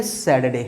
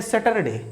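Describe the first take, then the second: First: सैटरडे as sat-day, the ur silent; short सैटरडे, two beats, no r; correct pronunciation. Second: सैटरडे with a full ter, sat-ter-day; the mistaken सैटरडे with r sounded; wrong pronunciation. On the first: Teacher corrects pupils with the right सैटरडे. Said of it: "correct pronunciation है वो है सैटरडे". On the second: Teacher mimics village teachers saying सैटरडे wrongly. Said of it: "ये सैटरडे नहीं है भैया". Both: Shown as a demonstration.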